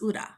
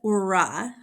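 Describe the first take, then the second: First: The r is said like a Japanese r. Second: The r is said like an English r. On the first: The speaker calls it right. "it's ura" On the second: The speaker calls it wrong. "instead of"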